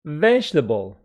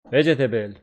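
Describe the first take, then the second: First: The vowel after the stressed syllable is dropped. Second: The vowel after the stressed syllable is pronounced. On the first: The speaker calls it right. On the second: The speaker calls it wrong.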